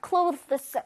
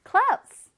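First: "clothes" with th sounded before the final s; original th-s pronunciation. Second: "clothes" like "close", high and forceful, no th; strong simplified ending. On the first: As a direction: carefully articulate the hard th-s cluster in "clothes". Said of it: "이걸 원래 발음하면 clothes인데 너무 어렵잖아요". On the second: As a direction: punch out "clothes" with a firm final s and no th. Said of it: "조금 강하게 끝에 clothes 하면 돼". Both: Shown as a demonstration.

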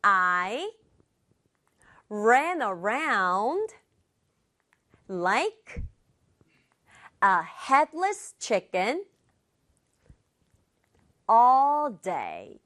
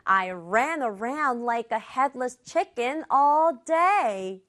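First: Slow model reading, chunk by chunk; slow repeat-after-me. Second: Whole sentence in one smooth run; connected full-sentence reading. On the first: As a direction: break it into small pieces with long pauses for learners. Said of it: "표현 함께 말해볼게요". (한 덩어리씩 끊어서 천천히) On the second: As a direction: model the sentence without breaks, at a learner's pace. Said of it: "의미 생각하면서 다시 한 번이요". (끊지 않고 한 문장으로 이어서) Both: Shown as a demonstration.

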